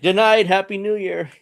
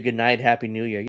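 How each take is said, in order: First: High, playful mimicking sing-out; mock trolling. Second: Said in the usual way. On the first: Host mimicking Maduro trolling his captors, mock-cheery. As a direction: toss it out as a cheeky taunt. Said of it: "So he's kinda trolling. I'm like". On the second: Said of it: "he said".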